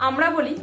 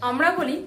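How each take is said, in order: No difference in how they are said.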